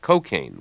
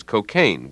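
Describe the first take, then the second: First: Cocaine with the stress on co, CO-caine; stress on first syllable. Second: Cocaine with the stress on caine, co-CAINE; stress on second syllable. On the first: Commentator shows the street pronunciation, CO-caine stress. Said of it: "with the stress on the first syllable". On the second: Commentator shows the old pronunciation, co-CAINE stress. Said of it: "with the stress on the second syllable". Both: Shown as a demonstration.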